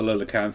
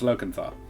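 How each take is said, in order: First: The name starts with 'Lola' and ends in 'canth'. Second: The name starts with 'Loca' and ends in 'cantha'. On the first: The speaker calls it wrong. "I was pronouncing it wrong" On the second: The speaker calls it right. "It's Locanthar"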